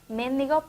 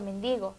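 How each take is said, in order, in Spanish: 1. La acentuación está en la primera sílaba. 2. La acentuación está en la segunda sílaba.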